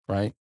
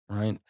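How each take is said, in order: Both takes have the same delivery.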